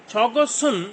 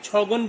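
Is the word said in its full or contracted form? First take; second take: full; contracted. First: It is said in full, with two syllables. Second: It is said contracted into one short syllable.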